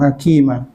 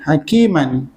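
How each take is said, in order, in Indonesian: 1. Kata itu berakhir dengan vokal a panjang. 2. Kata itu berakhir dengan bunyi -an. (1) "Dua tu jadi satu" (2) "Baris dua"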